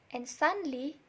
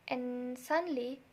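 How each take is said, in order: Both takes have the same delivery.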